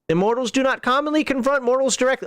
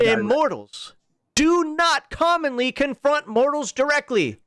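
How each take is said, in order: First: It is read quickly in a plain, flat way. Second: It is read slowly with strong, heavy emphasis.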